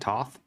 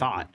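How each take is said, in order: First: It begins with a plain T sound. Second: It begins with a TH sound. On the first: "like a T sound for the first one, but then a T H for the second one" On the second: "He pronounces that differently than me"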